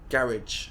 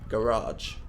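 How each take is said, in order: First: It is said the British way. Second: It is said the American way. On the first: "British people say" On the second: "Americans say"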